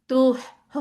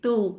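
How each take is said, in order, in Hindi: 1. स्वर के अंत में अतिरिक्त साँस वाली 'h' ध्वनि आती है। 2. स्वर साफ़ तरह से बिना किसी अतिरिक्त 'h' के खत्म होता है। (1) "आखिर में हा की आवाज आ रही है, वो नहीं होनी चाहिए" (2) "ये नहीं होनी चाहिए, तू।"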